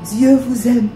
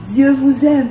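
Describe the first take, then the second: No difference in how they are said.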